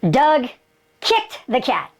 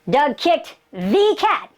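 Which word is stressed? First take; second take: kicked; the. First: The word kicked carries the main stress. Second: The word the carries the main stress. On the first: It was kicking, not some other action. "he kicked him. Didn't hit him" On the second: It was that particular special cat. "he kicked the one, he kicked the cat, the super one"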